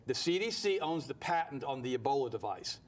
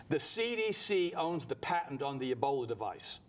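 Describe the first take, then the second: First: Said in the usual way. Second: Slow, weighty, every word spaced out; slow and deliberate. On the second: Shown as a demonstration. Radio host dropping a shocking claim to Herman, slow and deliberate. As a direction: lay out "The C D C owns the patent" slowly like a bombshell. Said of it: "this is gonna blow your mind".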